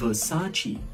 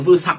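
First: The name is said with three syllables. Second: The name is said with two syllables. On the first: The speaker calls it right. "đọc ba âm và rất sang" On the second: The speaker calls it wrong. "mọi người phát âm sai"

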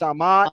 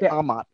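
First: The stress is on the second syllable. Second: The stress is on the first syllable. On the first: The speaker calls it wrong. "we were in school. We said amo, amas, amat" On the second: The speaker calls it right. "But it's really amat"

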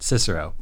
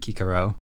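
First: The name begins with a soft s sound. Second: The name begins with a hard k sound. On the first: This is not the classical Latin pronunciation. "that is not the classical Latin way of pronouncing that name" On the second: This is the classical Latin pronunciation. "that is not the classical Latin way of pronouncing that name"

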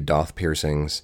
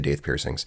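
First: The first word's vowel sounds like 'ah'. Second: The first word's vowel sounds like 'ay'. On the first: This is how some other people say it. "Some people say Doth piercings" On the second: This is the speaker's own pronunciation. "I say Daith piercings"

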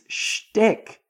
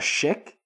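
First: It is said with a t after sh. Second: It is said without a t after sh. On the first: The speaker calls it right. "It's shtick" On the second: The speaker calls it wrong. "now you're calling shtick a shick?"

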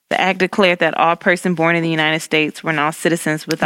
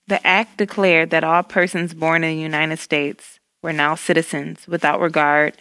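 First: It is read fast. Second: It is read slowly.

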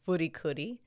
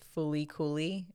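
First: The name is pronounced the Japanese way. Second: The name is pronounced the English way. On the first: "The Japanese pronunciation is Furi Kuri" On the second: "the Western or English pronunciation is Fuli Kuli"

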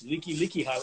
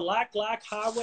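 First: The name is said like 'leaky leaky'. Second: The name is said like 'lack lack'. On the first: The speaker calls it right. "no, it's Leaky Leaky Highway" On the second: The speaker calls it wrong. "how do you pronounce that word? Is that the Lack Lack Highway?"

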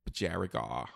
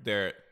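First: It is said in an Australian accent. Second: It is said in the speaker's ordinary accent.

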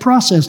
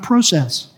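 First: It is said with an American pronunciation. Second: It is said with a non-American pronunciation. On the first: "there's evidence of the kingdom of the U.S. I said process" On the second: "not process"

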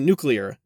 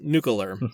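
First: The word is said as new-clee-ar. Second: The word is said as nuke-you-lar. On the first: The speaker calls it right. "how to enunciate and pronounce words right" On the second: The speaker calls it wrong. "not nuclear"

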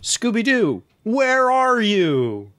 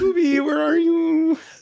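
First: It is said in his normal voice. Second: It is said in a Shaggy impression.

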